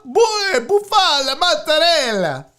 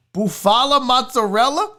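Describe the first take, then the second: First: Higher, exaggerated mock fancy voice; hammed-up, falling mockery; mocking repeat. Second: MOZZARELLA rising as a question; incredulous question. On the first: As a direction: make fun of a fancy menu word. Mocks the fancy topping name. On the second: Real, not acted. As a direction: question the word mozzarella in disbelief. Reads unfamiliar topping, questioning.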